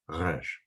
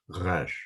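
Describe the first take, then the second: First: The R is made in the back of the throat. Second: The R is made in the back of the throat.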